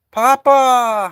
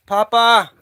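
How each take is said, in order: First: High, loud shout of the name; shouting a name outside; louder call. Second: High called question; high rising call; calling out a name. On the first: Calling cat louder. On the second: Calling cat named Papa. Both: Real, not acted.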